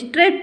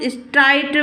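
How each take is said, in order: First: The vowel sounds like 'ay', as in 'strate'. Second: The vowel sounds like 'eye', as in 'strite'. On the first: The speaker calls it right. "इसको स्ट्रेट पढ़ते हैं हम" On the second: The speaker calls it wrong. "वैसे तो इसको चाहे तो हम स्ट्राइट वगैरह पढ़ सकते हैं"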